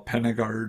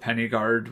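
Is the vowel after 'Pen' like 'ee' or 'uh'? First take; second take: uh; ee. First: The vowel after 'Pen' sounds like uh. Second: The vowel after 'Pen' sounds like ee. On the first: The speaker calls it right. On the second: The speaker calls it wrong.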